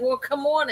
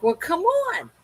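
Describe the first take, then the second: First: Slightly raised, mildly put-out invitation; mild retold giving-in. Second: Retold exasperation. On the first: Owner letting whining dog under blanket, mildly resigned. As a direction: give in with a small lift in pitch. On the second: Owner retelling second plea to whining dog, high and exasperated. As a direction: pitch leaps high on a pleading "on".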